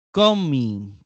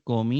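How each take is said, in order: First: Comi said louder, each syllable pronounced deliberately; emphasized example word. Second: Said in the usual way. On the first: Shown as a demonstration. Teacher presenting the Greek word comi to students, emphatic. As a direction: set out the word comi clearly for the class. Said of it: "Igual, comi, normal".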